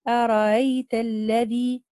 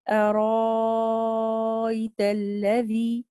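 First: The second hamza is softened, between hamza and vowel. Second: The second hamza is replaced by a long vowel. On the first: "لنا التسهيل في الهمزة الثانية" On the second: "وجه الإبدال"

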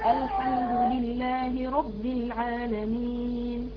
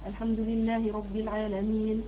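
First: It is recited at a slow pace. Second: It is recited at a medium pace. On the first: "طيب التحقيق" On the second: "التدوير قراءة وسط وسط"

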